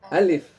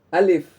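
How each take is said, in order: No difference in how they are said.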